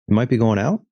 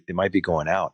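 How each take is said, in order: First: The voice rises at the end. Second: The voice falls at the end.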